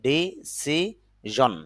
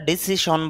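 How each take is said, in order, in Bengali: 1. মাঝের ব্যঞ্জনটি ঘোষ zh ধ্বনি। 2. মাঝের ব্যঞ্জনটি অঘোষ sh ধ্বনি। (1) "শুদ্ধ উচ্চারণটা হবে ডিসিজন" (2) "যদি আমরা ডিসিশন বলি"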